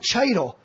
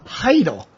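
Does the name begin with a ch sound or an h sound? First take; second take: ch sound; h sound. First: The name begins with a ch sound. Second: The name begins with an h sound. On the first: The speaker calls it wrong. "It's not Cheitel" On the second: The speaker calls it right. "The C is silent"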